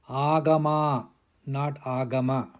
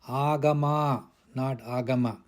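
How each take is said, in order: The two takes are said the same way.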